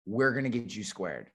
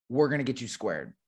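First: Softer, calm reassurance; reassuring. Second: Said in the usual way. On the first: Shown as a demonstration. Reassuring a worried caller, soft and calm. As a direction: settle them down gently, softer. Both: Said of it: "That is my killer line".

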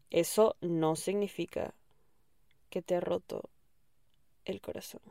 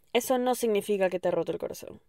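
First: Slow, fading to a whisper on "el corazón"; slow repeat sinking into a whisper; slow emphatic repeat. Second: Said in the usual way. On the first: Shown as a demonstration. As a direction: lay "Eso no significa que te ha roto el corazón" down slowly, dropping to a whisper.

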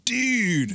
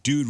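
First: "dude" stretched out high, Californian style; Californian long vowel. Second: Said in the usual way. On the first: Shown as a demonstration. Host demonstrating California vowels, long drawn-out "dude". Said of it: "vowels are super long". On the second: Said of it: "dude really does become dude".

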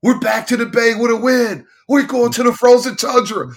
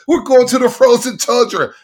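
First: High, loud fan yell through the terminal; celebrating fan yelling through the airport terminal, high and loud. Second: High, loud repeat of the chant; celebrating fan yelling the line again, high and loud. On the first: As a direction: belt it out like a triumphant fan. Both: Retold or imitated. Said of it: "I'm just yelling".

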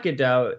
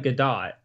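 First: GODOT said guh-DOH, no T; silent T. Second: GODOT said guh-DOT with a sounded T; hard T. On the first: Correcting how the actress's name is said, silent T. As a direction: end "Godot" on an open OH. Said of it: "It's not Godot". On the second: Showing the over-corrected way to say her name, hard T. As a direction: close "Godot" firmly on a T. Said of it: "it's also not quite Godot". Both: Shown as a demonstration.

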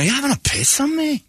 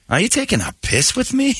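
First: Put-on high, botched Scottish accent; a bad try at the Glasgow man's line; mangled Scottish phrase. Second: Put-on high Scottish accent, phrase set right; corrected Scottish phrase. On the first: Host garbling the Scot's phrase, in a high botched Scottish accent. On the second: Host fixing the Scot's phrase, in a high Scottish accent. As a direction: redo the Glasgow man's line properly. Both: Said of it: "I don't think you're even doing that right".

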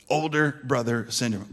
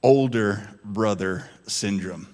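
First: Said in the usual way. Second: Low, slow and deliberate; slow emphatic reveal. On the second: Shown as a demonstration. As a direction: spell out the name weightily. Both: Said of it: "Here's what O B S is".

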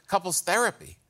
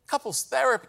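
First: Said in the usual way. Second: Higher-pitched, incredulous repeat; scornful disbelief. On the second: Acted. Comedian scoffing at people who go to therapy, incredulous. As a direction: throw the phrase back as if absurd.

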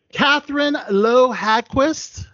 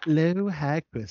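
First: "Lowe Hadquist" said slowly, with a d and a rise on Lowe; "Hadquist" with a d, careful and unsure, rising on "Lowe"; unsure name pronunciation. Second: "Lowe Hagquist" said slowly, with a g, now confident; "Hagquist" with a g, slow and careful; corrected name pronunciation. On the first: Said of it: "I hope I'm pronouncing that name properly". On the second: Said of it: "Law Hagquist, yep, that's me". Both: Real, not acted.

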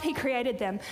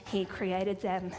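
First: Said in the usual way. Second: "he created them" said slowly and lower, leaning on "he"; slow it down and press on "he"; slow emphatic repeat. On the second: Shown as a demonstration.

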